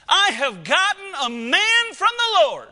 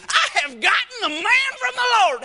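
First: Eve's joyful cry, higher and louder; excited mother. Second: Much higher, louder, hammed-up delight; exaggerated inflection. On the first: Acted. Eve holding her firstborn, excited proclamation. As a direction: proclaim the birth with delight. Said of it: "here is his mama's reaction". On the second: Shown as a demonstration. Preacher demoing another way to say it, hammed-up joy. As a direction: overplay the joy for the congregation. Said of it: "You can say that with whatever inflections you".

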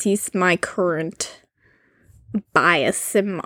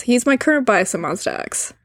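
First: Slow, low and halting; odd, halting delivery. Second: Said in the usual way. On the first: Real, not acted. Co-host telling of a favorite idol, oddly slow and low. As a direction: drag it out slowly in a lowered voice. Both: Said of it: "why am I talking like this?".

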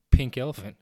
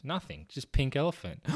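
First: Loud, blurted repeat; blurted shout. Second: Said in the usual way. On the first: Acted. Boy repeating the phrase loudly to the principal.

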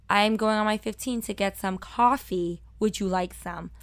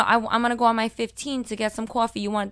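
First: Put-on careful, enunciated standard American accent; accent hidden. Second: Quick, casual Brooklyn offer; Brooklyn accent. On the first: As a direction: hide the Brooklyn accent, "coffee" as "cahfee". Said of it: "they made me lose it". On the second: Retold or imitated. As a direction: toss it out in thick Brooklyn, "coffee" as "cawfee". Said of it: "was my Brooklyn accent".

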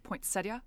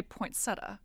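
First: Poinsettia as poyn-SET-ee-uh, the "ee" very quick; poinsettia ending in a quick "tee-uh"; quick i sound. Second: Poinsettia as poyn-SET-uh, no i; poinsettia with a plain "tuh" ending; common pronunciation. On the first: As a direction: slip a quick "ee" into the end of poinsettia. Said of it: "if it's a really quick poinsettia". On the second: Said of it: "most people say poinsettia". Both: Shown as a demonstration.

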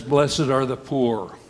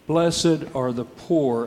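First: Said in the usual way. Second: "Blessed are the poor" said slowly, each word weighed, with a firm falling end; blunt and slow. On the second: Shown as a demonstration. Repeating Luke's beatitude to the congregation, slow and blunt. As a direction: let it land flat and final.

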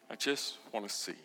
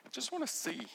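First: Echoed plea. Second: First plea. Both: Acted. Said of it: "Bartimaeus answers".

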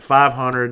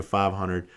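First: Louder, higher called-out bid; bold bid. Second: Said in the usual way. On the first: Retold or imitated. Bidder jumps straight in at auction, bold and loud. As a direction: call the figure out over the room. Retells jumping in with high bid.

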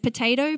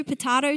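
First: "potato" as puh-TAY-toh; long A. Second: "potato" as puh-TAH-toh; broad A. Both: Shown as a demonstration. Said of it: "Whatever it is".

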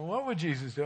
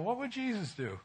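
First: Said in the usual way. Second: Raised, softer question to himself; thoughtful inner voice. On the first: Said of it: "You know, what would Jesus do?". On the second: Retold or imitated. Pastor recalling his second thought about the neighbor, softly raised. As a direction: muse it like a sudden realisation. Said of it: "Then I thought to myself".

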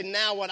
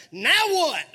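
First: Said in the usual way. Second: Higher and louder, indignant; as if they got your latte wrong; exasperated latte complaint. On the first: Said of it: "I don't want you to say". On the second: Shown as a demonstration. Preacher demonstrating an indignant complaint for the congregation, higher and louder. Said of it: "when they got your latte wrong. That way".

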